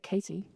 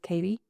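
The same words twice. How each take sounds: First: The middle consonant is a strongly pronounced T. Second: The middle consonant sounds like a soft D. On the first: It is how the name comes out naturally. "when I naturally just say it" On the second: It is the form used so Americans understand. "I had to pronounce it with a D"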